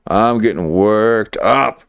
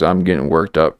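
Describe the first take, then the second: First: Slow, drawn-out WORKED UP, rising at the end. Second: Said in the usual way. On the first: Real, not acted. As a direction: stretch "worked up" and lift the pitch on UP. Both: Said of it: "I'm getting worked up right now".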